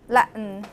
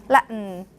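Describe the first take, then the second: No difference in how they are said.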